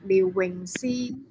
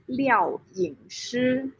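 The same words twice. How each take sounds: First: "Liu Wingxi" said with Cantonese sounds; Cantonese pronunciation. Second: "Liao Yingshi" said with Mandarin sounds; Mandarin pronunciation. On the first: Guest introducing their name to participants, "Liu Wingxi" in Cantonese pronunciation. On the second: Guest introducing their name to participants, "Liao Yingshi" in Mandarin pronunciation. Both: Shown as a demonstration. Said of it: "same meaning, but different pronunciation".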